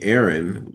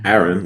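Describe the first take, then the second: First: The first vowel sounds like the vowel in 'Erin'. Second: The first vowel sounds like the vowel in 'apple'. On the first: This is the female name. The speaker calls it wrong. "a lot of people will call me Aaron, like with an E, which is a female name" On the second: This is the name as it really is. The speaker calls it right. "Aaron, like Apple"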